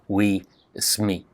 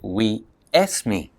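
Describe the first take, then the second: First: The surname sounds like sme, with no vowel. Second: An e sound comes before the s. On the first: "they get hungry and they eat those final consonants" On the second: "They say we esme"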